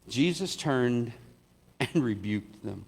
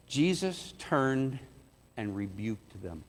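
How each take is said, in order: First: Laughing retake. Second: Slow, grave "rebuked them", fading much softer; solemn, slow. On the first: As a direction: try it again and chuckle through it. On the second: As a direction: drop the voice to a hush on "rebuked them". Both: Shown as a demonstration.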